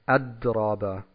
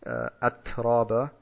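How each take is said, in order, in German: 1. Der mittlere Konsonant klingt wie ein stimmhaftes d. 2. Der mittlere Konsonant ist ein behauchtes t. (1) "wenn ich diese Eigenschaft wegkürze, dann sage ich Adraba. Und das ist falsch" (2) "statt Atraba"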